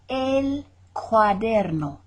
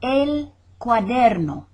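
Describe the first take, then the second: First: El cuaderno spelled out slowly, each syllable; slow repeat. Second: El cuaderno said clearly and a bit louder; model pronunciation. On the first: Teacher repeats El cuaderno slowly so students copy. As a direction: drag El cuaderno out slowly for learners. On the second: Teacher models El cuaderno for students, clear and louder. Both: Shown as a demonstration. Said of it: "model then slow repeat".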